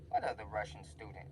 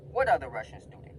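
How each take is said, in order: First: Low, soft wondering to himself; puzzled aside. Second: Full-voiced, incredulous question; open demand. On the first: Retold or imitated. Student listening by the door, quietly puzzled. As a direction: ask it under your breath. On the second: Student called back in, asking the principal outright. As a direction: put it to him straight out, punching the start. Confronting the principal openly afterwards.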